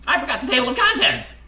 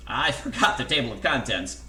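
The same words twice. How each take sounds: First: High, very loud wail; panicked outburst. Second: Loud, agitated admission at normal pitch; worried announcement. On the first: Narrator confessing a mistake mid-story, high panicked shout. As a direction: repeat it escalated into full panic. Jack repeats it, escalating. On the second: Narrator confessing a mistake mid-story, loud worried blurt. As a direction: blurt it out with some alarm. Jack interrupts in alarm, first take. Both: A narrator's reading.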